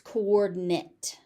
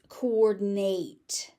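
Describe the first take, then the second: First: The ending is pronounced the noun way. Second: The ending is pronounced the verb way. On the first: The word is used as a noun. "as a noun, it's coordinate" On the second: The word is used as a verb. "As a verb, it's coordinate"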